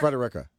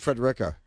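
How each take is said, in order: First: A vowel is said between the D and R. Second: No vowel is said between the D and R. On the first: The speaker calls it right. "I'm wrong, but I'm wrong. It's Frederica" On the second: The speaker calls it wrong. "I always said Frederica"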